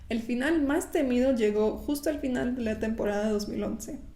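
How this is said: It is spoken in a Mexican Spanish accent.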